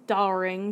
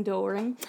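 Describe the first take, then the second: First: Doring said as DAR-ing, with an open "ah"; alternative pronunciation. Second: Doring said as DOR-ing, with a round "oh"; Doring as "DOH-ring", softer, like a guess; alternative pronunciation. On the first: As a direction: try Doring with "ah" in the first syllable. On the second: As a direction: try Doring with "oh", softly, questioning rise. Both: Real, not acted. Trying out pronunciations of surname.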